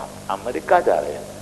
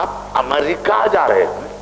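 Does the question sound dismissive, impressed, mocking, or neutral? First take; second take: dismissive; impressed. First: It is asked dismissively, belittling the country name. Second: It is asked admiringly, leaning on the country name. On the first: The destination is seen as a lowly place. "America की पस्ती" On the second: The destination is seen as a lofty place. "America की बुलंदी"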